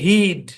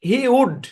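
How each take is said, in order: First: It is said as one short contracted syllable. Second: It is said as two separate full words. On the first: "উচ্চারণ হচ্ছে হিড" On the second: "মূল হচ্ছে হি উড"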